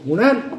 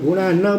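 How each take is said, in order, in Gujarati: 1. અંતિમ n એક સાદો વ્યંજન છે. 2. અંતિમ n પછી પૂર્ણ સ્વર આવે છે. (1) "ગુણાન અડધો છે ને" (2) "તમે ગુણા ન બોલ્યા તો ખોટું"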